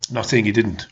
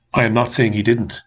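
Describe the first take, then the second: First: Said in the usual way. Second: I am spelled out, AM leaned on; firm I am, each word given weight; stress on AM. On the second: Real, not acted. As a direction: insist with I am not.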